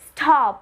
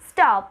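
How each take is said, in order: First: The t after s has a puff of air. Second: The t after s has no puff of air. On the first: The speaker calls it wrong. "We're not saying stop" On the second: The speaker calls it right. "S T is not aspirated. We're saying stop"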